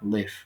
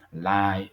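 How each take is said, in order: First: The vowel is short, rhyming with give. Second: The vowel is long, rhyming with five. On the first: Someone resides somewhere. "Aquí se pronuncia live" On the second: Something is being broadcast in real time. "live sí tiene esa pronunciación en ese contexto"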